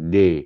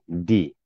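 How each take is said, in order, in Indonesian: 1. Vokal setelah d adalah e terbuka. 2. Vokal setelah d adalah i tipis. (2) "bacaannya nipis"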